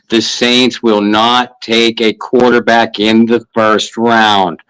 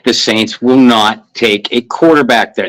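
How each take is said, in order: First: It is said slowly and deliberately. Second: It is said at normal speed.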